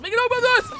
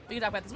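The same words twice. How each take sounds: First: "this" shouted much higher and louder as a plea; pleading shout. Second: Said in the usual way. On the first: Real, not acted. Streamer pleading with the killer, high loud shout. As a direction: yell the line up high, begging. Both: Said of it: "repeated louder".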